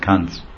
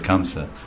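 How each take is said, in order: First: The name has one syllable with a nasal ending. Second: The name has two syllables ending in a vowel. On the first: This is the Hindi form. "Hindi becomes Kans" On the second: This is the Sanskrit and Bengali form. "Sanskrit is Kamsa"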